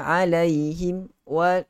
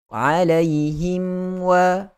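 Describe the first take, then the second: First: There is a brief stop between the words. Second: The words run on smoothly without a break. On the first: The speaker calls it wrong. "dia macam ada saktah pula" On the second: The speaker calls it right. "dia kena baca alaihim waladhdha"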